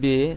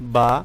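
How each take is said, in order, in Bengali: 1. এটি উর্দু ধাঁচে বলা হচ্ছে। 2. এটি আরবি ধাঁচে বলা হচ্ছে। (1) "আসলে এই উচ্চারণটি পুরোপুরি ভুল।" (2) "আপনি লক্ষ্য করুন আমি কেমনভাবে উচ্চারণ করছি।"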